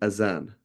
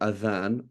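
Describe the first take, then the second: First: The middle consonant is a z sound. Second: The middle consonant is a th sound. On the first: The speaker calls it right. "the word in English is azan" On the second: The speaker calls it wrong. "It is not adhan"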